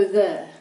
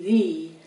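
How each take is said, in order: First: The vowel is a short uh sound. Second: The vowel is a long E sound. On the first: "they just go the with a short U sound" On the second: "the E on the end is going to be long, a long E"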